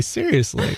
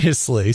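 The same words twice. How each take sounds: First: "seriously." jumps much higher, softer, falling; a squeaky, disbelieving "seriously." to a friend; incredulous. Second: Said in the usual way. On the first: Real, not acted.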